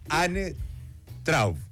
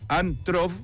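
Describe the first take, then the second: First: The surname is said in a German way. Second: The surname is said in a Spanish-style way. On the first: The speaker calls it right. "Muy bien, súper" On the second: The speaker calls it wrong. "¿lo pronuncié bien, Ann? / Más o menos nomás"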